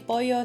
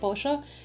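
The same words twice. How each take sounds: First: It is said in a standard Spanish accent. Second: It is said in an Argentine accent.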